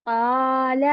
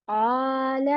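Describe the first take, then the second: No difference in how they are said.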